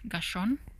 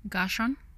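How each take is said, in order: First: The name ends with an n sound. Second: The same.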